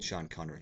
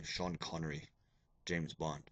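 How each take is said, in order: First: Said in the usual way. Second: Lightly attempted James Bond voice, low and soft; a hint of a suave spy, pitched down and quiet; Sean Connery. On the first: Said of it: "I do the old". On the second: Shown as a demonstration. Teacher showing students his terrible Bond impersonation, lightly done Connery impression. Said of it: "I do the old Sean Connery".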